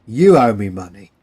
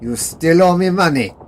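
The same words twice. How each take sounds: First: "you" punched loud at the start; Stanley throwing the debt back, "you" stressed. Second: "owe" stressed, louder and higher; the German claiming Stanley owes him, "owe" stressed. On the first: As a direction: hit "you" hard to turn the debt around. Stanley turns the claim around. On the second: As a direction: lean on the word "owe" with drunken insistence. Drunk German demanding his debt. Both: Acted.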